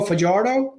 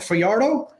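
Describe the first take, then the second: First: The J is pronounced as a consonant. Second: The J is not pronounced as a consonant.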